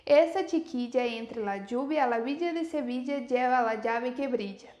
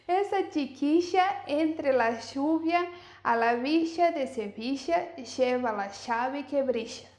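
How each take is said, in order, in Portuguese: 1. Os sons 'll' são simples, sem chiado. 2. Os sons 'll' têm chiado, como 'sh'. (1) "como eu falaria normalmente" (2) "esse som argentino que é bem chiado"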